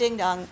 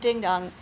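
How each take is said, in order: First: The NG sound is only lightly hinted. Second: The NG sound is only lightly hinted.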